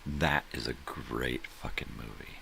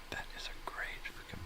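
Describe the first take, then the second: First: Said in the usual way. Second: Whispered much softer, as a secret confession. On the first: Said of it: "repeats line, then whispered". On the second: Shown as a demonstration. Whispering his praise of a Shatner film to the audience. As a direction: lean in and hush it. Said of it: "repeats line whispered".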